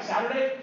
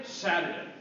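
First: "Saturday" higher, rising as a question; questioning tune. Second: "Saturday" falling, as a settled answer; confirming tune. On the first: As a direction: lift "Saturday" into a suggestion. Acted exchange, suggesting a day. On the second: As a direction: drop "Saturday" at the end to confirm. Acted exchange, confirming the day. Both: Retold or imitated.

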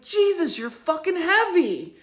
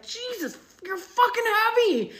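First: High, sharp exasperated cry at the pig; irritated outburst. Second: High, sharp cry of pain and irritation; angry outburst. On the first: Retold or imitated. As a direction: blurt it out, annoyed and in pain. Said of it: "the way I said it". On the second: Shown as a demonstration. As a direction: snap it like the pig just crushed your toe. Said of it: "just like that".

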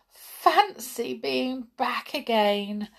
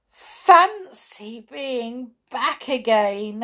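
First: Savouring being home; happy wonder. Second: Slow, louder echo of joy; echoing his friend, louder; slow louder delighted repeat. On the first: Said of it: "said Hop". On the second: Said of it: "echoed Skip". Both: A narrator's reading.

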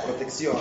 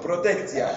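First: Said in the usual way. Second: Teasing fake-Hebrew Proteccia; joke Hebrew ending. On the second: Shown as a demonstration. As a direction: say Proteccia ending in tzia, playfully. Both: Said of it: "Agregás tzia".

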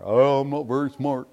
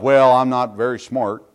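First: Lightly voiced self-deprecating whine; a hint of faked helplessness; mock dumb excuse. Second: Mock excuse. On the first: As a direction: play dumb, half-hearted. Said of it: "play off how dumb they are". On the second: Mocking people's excuse.

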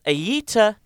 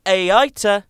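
First: "Aita" run together to rhyme with heater; "Aita" like eater. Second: "Aita" with a long A, then eye, then ta; "Aita" in three syllables. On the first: Host toying with the subreddit name, "Aita" said as eater. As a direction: say "Aita" in two syllables, as eater. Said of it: "Like a rye eater". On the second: Host sounding out the subreddit name, "Aita" as ay-eye-ta. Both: Shown as a demonstration.

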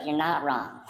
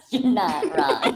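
First: Said in the usual way. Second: Slower, louder, laughing it out; amused, drawn-out repeat through laughter. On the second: Real, not acted. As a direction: savour the line while cracking up. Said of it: "repeated while laughing".

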